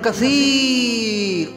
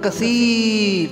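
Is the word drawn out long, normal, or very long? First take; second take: very long; long. First: The word is stretched out even longer. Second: The word is stretched out somewhat longer. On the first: "और लंबा किया" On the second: "थोड़ा सा और लंबा किया"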